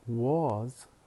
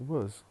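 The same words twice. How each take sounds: First: The word has a full, clear vowel. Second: The word has a reduced schwa vowel. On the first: "Instead of saying was" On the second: "we say was, schwa"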